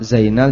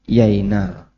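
First: The name begins with a z sound. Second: The name begins with a y sound. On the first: "Za jadi ya" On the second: "orang Jogja susah mengucapkan"

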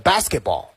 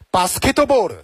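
First: It is said with an English pronunciation. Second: It is said with a Japanese-style pronunciation. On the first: "英文呢是" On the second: "日式发音呢就是"

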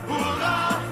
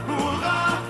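Both takes have the same delivery.

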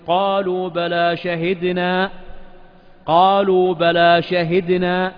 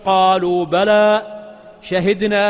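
First: It runs on without a pause after bala. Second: There is a pause right after bala. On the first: The humans themselves say they bear witness. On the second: God and the angels say they bear witness.

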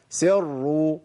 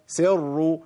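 No difference in how they are said.

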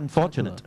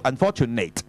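First: The final syllable has a light, reduced vowel. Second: The final syllable has a full, strong vowel. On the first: The speaker calls it right. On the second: The speaker calls it wrong.

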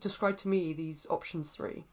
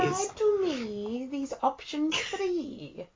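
First: It is said in an ordinary speaking voice. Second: It is said in a theatrical put-on voice.

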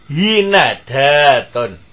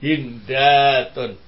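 First: The second letter carries an a vowel. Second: The second letter carries no vowel. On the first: "huruf yang kedua di fathah" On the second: "Bacaannya ketiga tetap sukun"

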